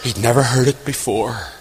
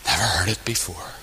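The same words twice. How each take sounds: First: Said in the usual way. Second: Near-whispered, low repeat; very soft and low, letting it land; hushed. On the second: Real, not acted. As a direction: let it sink to a whisper for emphasis. Hushed repeat after tearful reaction.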